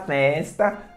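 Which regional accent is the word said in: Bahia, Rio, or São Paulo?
Bahia. It is said with a Bahia accent. "Na Bahia o pessoal fala festa"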